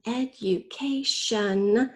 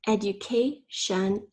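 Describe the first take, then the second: First: "Education" very slowly in four beats, rising at the end; spelling teacher sounding out "Education" slowly; syllable by syllable. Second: Said in the usual way. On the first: Shown as a demonstration. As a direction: stretch each syllable of "Education". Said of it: "The fourth syllable is". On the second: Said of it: "First, say the whole word".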